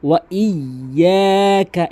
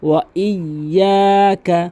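Both takes have the same delivery.

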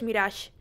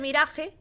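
First: The name is pronounced with French sounds. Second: The name is pronounced with Spanish sounds. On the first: The speaker calls it right. "bien dicho creo que es Mirage" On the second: The speaker calls it wrong. "mal dicho se dice Mirage"

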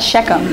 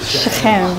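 First: The middle consonant is a plain hard k. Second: The middle consonant is a throaty, gargled sound. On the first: The speaker calls it wrong. "So it's not Shechem" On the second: The speaker calls it right. "you have to pronounce it like a like you're like gargling something"

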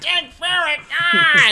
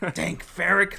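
First: It is said dramatically with an added shout. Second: It is said plainly without extra drama.

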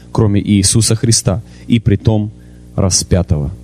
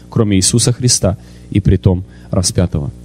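The two takes are said the same way.

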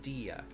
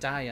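First: The name does not sound like diamond's start. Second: The name sounds like the start of diamond. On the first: The speaker calls it right. "instead of Dia" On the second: The speaker calls it wrong. "say your name wrong, like Dia"

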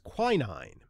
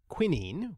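First: It uses the usual American pronunciation. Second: It uses the usual British pronunciation. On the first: "what is usually labeled as the American pronunciation, is quinine" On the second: "The usual British pronunciation is quinine"

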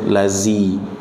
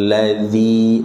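First: The middle consonant is a buzzing z. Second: The middle consonant is a voiced th. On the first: The speaker calls it wrong. "jangan dibaca dengan z" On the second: The speaker calls it right. "di ujung lidah"

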